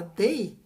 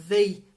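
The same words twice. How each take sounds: First: They said with a hard d, like dei; they turned into day; slow, they said with d not th; wrong they, like day. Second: They with voiced th, tongue between teeth; slow, voiced th in they; correct they. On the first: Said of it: "você fala they ... tá falando dia". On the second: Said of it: "se ao invés de falar". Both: Shown as a demonstration.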